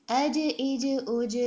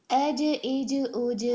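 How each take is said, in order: Both takes have the same delivery.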